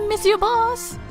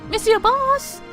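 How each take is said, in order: Both takes have the same delivery.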